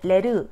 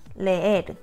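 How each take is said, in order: First: The two vowels merge into one syllable. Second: The two vowels are split into two syllables. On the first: The speaker calls it wrong. "그냥 한 소리로 레르 이게 아니라" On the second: The speaker calls it right. "레에르 이음절이 분명하게 나뉘게 들리죠"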